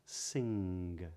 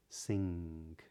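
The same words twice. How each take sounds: First: The word ends with a hard G sound. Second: The word ends with a K-like sound. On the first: "but not" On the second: "something a bit more like a K at the end"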